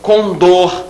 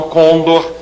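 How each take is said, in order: First: "condor" as con-DOR, the ending held; end-stressed "condor"; stress on last syllable. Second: "condor" as CÔN-dor, first syllable stressed; front-stressed "condor"; wrong stress. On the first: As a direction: land hard on DOR in "condor". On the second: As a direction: hit CON and let dor fall away in "condor". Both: Shown as a demonstration. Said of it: "e não condor".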